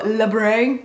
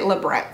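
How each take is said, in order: First: The word is said in a French-sounding way. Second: The word is said plainly, not French-sounding. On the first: The speaker calls it wrong. "I like to turn it French and go labre" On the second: The speaker calls it right. "apparently it's actually labrette"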